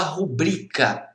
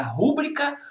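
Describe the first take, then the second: First: "rubrica" stressed on middle syllable, ru-BRI-ca; tônica na penúltima. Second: "rúbrica" stressed at the start, RU-bri-ca; tônica na primeira sílaba. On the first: ("rubrica" com a tônica no BRI) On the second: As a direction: hit RU in "rúbrica". ("rúbrica" com a tônica no RU) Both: Shown as a demonstration. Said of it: "Todas essas são dúvidas bem pertinentes".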